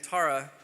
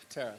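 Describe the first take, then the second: First: "Tara" said with an "ah" vowel, TAH-ra; "Tara" rhymed with "car-a"; first pronunciation of a name. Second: "Tara" said with an "air" vowel, TAIR-a; "Tara" rhymed with "care-a"; corrected pronunciation of a name. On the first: Moderator reading names to a panel, "Tara" said as TAH-ra. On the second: Moderator correcting a panelist's name, "Tara" said as TAIR-a. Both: Shown as a demonstration. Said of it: "Tara or Tara?".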